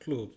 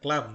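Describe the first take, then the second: First: The vowel sounds like a long 'oo' sound. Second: The vowel sounds like the English 'uh' sound. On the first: The speaker calls it right. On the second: The speaker calls it wrong. "এটা ক্লাব না"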